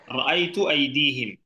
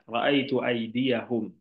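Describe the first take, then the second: First: The second word is said as 'aidihim'. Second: The second word is said as 'aidiyahum'. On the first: The speaker calls it wrong. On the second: The speaker calls it right.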